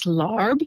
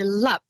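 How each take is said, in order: First: The word is said with an R sound. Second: The word is short, with no R sound. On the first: The speaker calls it wrong. "a lot of pronunciation in the U S is larb" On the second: The speaker calls it right. "like a quick short lap, L A A B, without the R in it"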